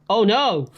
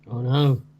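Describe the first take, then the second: First: It is said with convincing alarm. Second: It is said flatly, without real alarm.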